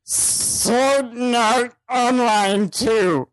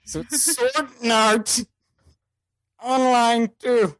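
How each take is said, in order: First: Sword Art Online two dragged very slowly as sod nat; nasal mispronunciation. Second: Sword Art Online two slow with extra N sounds; mock nasal reading. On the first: Reading a title the only way it fits, silly slow. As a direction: stretch each word out weirdly. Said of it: "that's the only way I can read that". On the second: Explaining the typo, slow nasal read. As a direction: stuff N sounds in slowly. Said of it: "has an N in there". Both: Shown as a demonstration.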